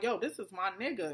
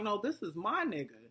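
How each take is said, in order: First: Said in the usual way. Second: "my" punched hard as a counterclaim; stress on MY. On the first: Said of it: "then Amber's like". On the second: Retold or imitated. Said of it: "And Tierra's like".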